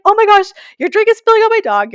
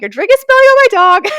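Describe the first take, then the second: First: High, loud alarmed cry; frantic, much higher and louder warning; panicked shout. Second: Higher, louder frantic yell; urgent shriek repeating the warning; even more panicked shout. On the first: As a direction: yell to stop the spill on your dog. Drink spilling onto her dog. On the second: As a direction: scream it again, nearly losing it. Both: Retold or imitated.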